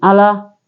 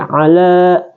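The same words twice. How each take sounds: First: The vowel is short, one beat. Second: The vowel is held long, two beats. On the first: The speaker calls it wrong. "jadi bukan ala" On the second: The speaker calls it right. "dibaca mad atau panjang dua harakat"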